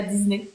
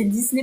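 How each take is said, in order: First: Disney as "Diz-ney", the rejected way; Disney with a Z sound. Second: Disney as "Diss-ney", the correction; Disney with an S sound. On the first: Shown as a demonstration. Host repeats what she is told off for, Disney with a Z. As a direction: say Disney with a voiced Z. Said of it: "pas Disney". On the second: Retold or imitated. Host repeats the correction she gets, Disney with an S. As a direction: say Disney with a crisp S. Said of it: "on me dit c'est Disney".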